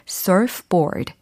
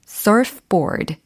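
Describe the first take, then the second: First: It is said with English-style sounds and stress. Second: The same.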